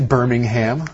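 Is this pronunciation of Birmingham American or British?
American. It is said with an American pronunciation. "we would say Birmingham, like your last name is Brittingham"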